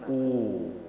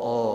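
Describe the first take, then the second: First: The vowel is a fully rounded u. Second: The vowel is an open o. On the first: The speaker calls it right. "kalau dia dhammah berarti harus dimonyongkan sempurna" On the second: The speaker calls it wrong. "jangan o"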